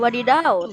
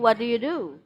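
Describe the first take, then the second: First: The words are slurred together into one blur. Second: Each word is said clearly and separately. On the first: The speaker calls it wrong. "Bukan wadidaw" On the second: The speaker calls it right. "tapi what do you do?"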